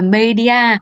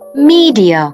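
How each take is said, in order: First: The first vowel sounds short, like in 'bed'. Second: The first vowel sounds long, like in 'see'. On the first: The speaker calls it wrong. "bạn nào đang đọc là media thì vui lòng giơ tay" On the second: The speaker calls it right. "cách đọc chính xác của từ này phải là"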